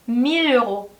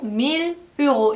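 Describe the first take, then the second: First: The two words are smoothly linked together. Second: The two words are said separately, unlinked. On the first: The speaker calls it right. "부드럽게 연음해주세요" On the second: The speaker calls it wrong. "이렇게 하지 말고"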